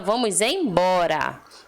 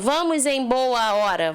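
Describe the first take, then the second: First: The last words fuse, losing sounds. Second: Every word is said fully and separately. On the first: The speaker calls it right. "a gente fala" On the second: The speaker calls it wrong. "Imagina a pessoa falando"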